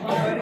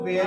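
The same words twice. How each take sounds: First: "वर" said as a single short syllable, "wer"; Indian English pronunciation. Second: "वेयर" drawn into two parts, "we-ar"; American pronunciation. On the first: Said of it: "वेयर भी कहते हैं". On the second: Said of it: "American में वेयर ज्यादा निकलता है". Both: Shown as a demonstration.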